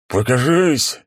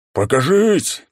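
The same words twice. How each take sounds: First: Loud roar muffled inside helmet. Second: High, loud muffled helmet roar. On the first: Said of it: "взревел приглушённый голос из-под шлема". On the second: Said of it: "снова начал догадываться". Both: A narrator's reading.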